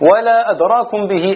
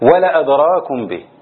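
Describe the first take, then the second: First: The vowel after the L is long. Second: The vowel after the L is short. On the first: It would not have been made known to you. "على قراءة الجمهور" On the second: It would have been made known to you directly. "قراءة لابن كثير ولا أدراكم به بحذف الألف بين اللام والهمزة"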